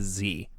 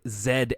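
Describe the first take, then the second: First: The letter is said the American way. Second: The letter is said the local, non-American way. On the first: This is how an American expects it. "instead of Z" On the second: This is how it is said over here. "when I pronounce their name as Lion Dog Z X A"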